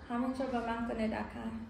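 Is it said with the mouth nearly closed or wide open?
nearly closed. It is said with the mouth nearly closed.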